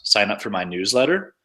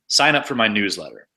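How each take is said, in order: First: The pitch goes up at the end. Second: The pitch drops at the end. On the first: It sounds like a question. The speaker calls it wrong. "when you tone your voice up like that, it always sounds like a question" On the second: It is a command. The speaker calls it right. "that commanding tone where it has a drop at the end"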